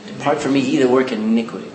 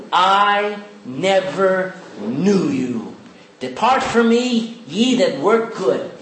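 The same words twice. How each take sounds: First: Low, firm reading of the real verse; correct version. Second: Slow deliberate misquote; wrong version. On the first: Preacher correcting his misquote with the real words. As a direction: drop low and set the record straight. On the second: Preacher slowly misquoting the verse to test the church. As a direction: drag it out slowly, as if reading it wrong on purpose. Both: Shown as a demonstration. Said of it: "Is that what he said?".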